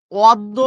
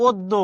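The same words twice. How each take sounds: First: "অদ্য" louder, with opened first vowel; first pronunciation option. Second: "অদ্য" said od-do, rounded o; second pronunciation option. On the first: Teacher posing an exam choice, "অদ্য" loud with open first vowel. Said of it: "পরীক্ষায় প্রশ্ন এসেছে". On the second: Teacher offering the alternative, "অদ্য" as od-do. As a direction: round the first vowel of "অদ্য": od-do. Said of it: "নাকি". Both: Shown as a demonstration.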